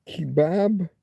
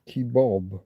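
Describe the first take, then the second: First: "kebab" with a short flat A, kih-BAB; British pronunciation. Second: "kebab" said as kih-BOB; North American pronunciation. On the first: Streamer asking why the word differs, British pronunciation. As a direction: say "kebab" to rhyme with cab. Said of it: "Why does kebab become kebab if you cross the". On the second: Streamer querying the transatlantic version, North American pronunciation. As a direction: say "kebab" to rhyme with job. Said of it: "become kebab if you cross the, the Atlantic". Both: Shown as a demonstration.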